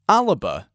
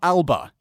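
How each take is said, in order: First: The word has a Gaelic pronunciation. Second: The word has an English pronunciation. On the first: The speaker calls it right. "ALBA is how you say it" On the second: The speaker calls it wrong. "That is the English pronunciation of a Gaelic word"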